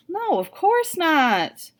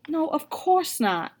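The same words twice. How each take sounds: First: Slow, drawn-out innocent no, pitch lifted high; forced cheerful denial. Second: Reassuring. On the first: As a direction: sell the lie with a forced smile. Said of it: "I force a smile". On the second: Mama reassures the kids. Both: A narrator's reading.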